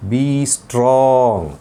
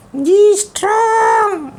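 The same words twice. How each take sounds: First: Said in the usual way. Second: Put-on high, slow child puppet voice; puppet boy voice. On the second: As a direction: play the cheeky little boy puppet. Puppet echoes theme.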